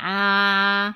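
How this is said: A pinched, sharp, duck-like nasal vowel. The speaker calls it wrong. "pas non plus canard, c'est pas «ah», il est pas pointu"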